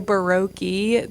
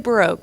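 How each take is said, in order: First: The last syllable does not sound like 'broke'. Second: The last syllable sounds like 'broke', clearly enunciated. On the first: The speaker calls it wrong. "some people say Baroque. That is so wrong" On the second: The speaker calls it right. "Like you're broke as a joke, but um, you're really enunciating that"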